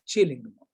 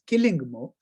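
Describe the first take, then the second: First: The name begins with a ch sound. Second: The name begins with a hard k sound. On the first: This is how the name is actually pronounced. "but actually I found out pronounced as Chillingmo" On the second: This follows the spelling. "written as Killingmo"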